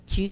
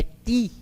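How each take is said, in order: First: "ti" as chee; "ti" softened into tchi; Portuguese palatalised T. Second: "ti" as tee, pure t; "ti" with a clean tongue-tip t; hard Esperanto T. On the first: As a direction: say "ti" with a Brazilian tch onset. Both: Shown as a demonstration. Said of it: "nós não dizemos ti".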